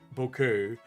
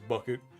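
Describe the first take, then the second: First: The name is said like the word bouquet. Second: The name is said like the word bucket. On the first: It is the posh, upper-class way she insists on. "she's officially called Missus Bouquet" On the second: It is the plain way it is spelt and others say it. "everyone affectionately calls her Missus Bucket"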